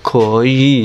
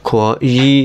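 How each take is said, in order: Both takes have the same delivery.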